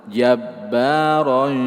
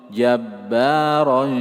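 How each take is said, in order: The two takes are said the same way.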